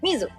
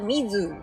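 First: The final vowel is cut short. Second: The final vowel is stretched out long. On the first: The speaker calls it right. "伸ばさないで止めて" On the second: The speaker calls it wrong.

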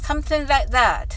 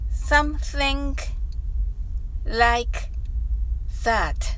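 First: The phrase is said quickly. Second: The phrase is said slowly. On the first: "それでは早く言ってみましょう" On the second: "まずはゆっくりと練習してみましょう"

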